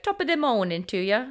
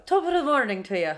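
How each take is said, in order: First: Bad Irish accent. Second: Put-on an Irish accent, rolling the words a bit more; Irish accent attempt. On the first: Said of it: "I don't do accents very well". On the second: An Irish accent showing her cohost how it's said. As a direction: give it a better Irish lilt. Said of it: "That's more it".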